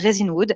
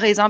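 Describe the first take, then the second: First: The first part sounds like English resin. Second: The first part sounds like French raisin. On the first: The speaker calls it right. "mais ça s'appelle Resinwood" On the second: The speaker calls it wrong. "pas raisin parce que souvent moi je l'ai mal prononcé"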